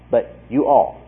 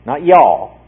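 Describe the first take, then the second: First: Said in the usual way. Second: Y'all said as one clipped Southern word, louder; Texas y'all. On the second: Shown as a demonstration. Preacher contrasts Texas y'all with you all, mock Southern y'all. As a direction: drop into a mock Texan y'all. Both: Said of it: "Not y'all, but you all".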